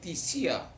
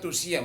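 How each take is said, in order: First: The first vowel is said as 'i'. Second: The first vowel is said as 'u'. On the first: This is how the word is read in modern Greek. "menjadi tisia" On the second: This is how the word is written. "nulisnya tusia"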